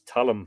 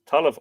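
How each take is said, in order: First: The word ends with an m sound. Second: The word ends with a v sound. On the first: The speaker calls it right. "and it's talim. I think it's talim" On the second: The speaker calls it wrong. "I'm saying taliv now"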